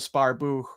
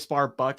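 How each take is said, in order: First: The name ends with a soft breathy h sound. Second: The name ends with a hard k sound. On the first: The speaker calls it right. "I'm pretty sure it's pronounced like crypto Sparbuch" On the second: The speaker calls it wrong. "people say Sparbuck and stuff"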